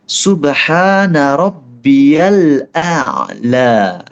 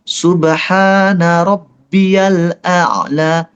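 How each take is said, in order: Both takes have the same delivery.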